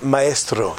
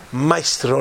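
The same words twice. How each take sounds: First: "maestro" as my-ES-tro, three syllables; Spanish pronunciation. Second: "maestro" as MY-stro, two syllables; Italian pronunciation. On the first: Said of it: "maestro in Espanol". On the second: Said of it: "maestro in Italiano". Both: Shown as a demonstration.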